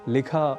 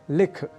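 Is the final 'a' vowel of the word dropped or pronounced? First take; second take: pronounced; dropped. First: The final short 'a' vowel is pronounced. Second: The final short 'a' vowel is dropped. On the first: The speaker calls it right. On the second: The speaker calls it wrong.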